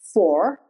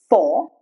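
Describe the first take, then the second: First: The final R is sounded, American style. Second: The final R is silent, British style. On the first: "But in American accent, R is pronounced" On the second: "The R is not pronounced"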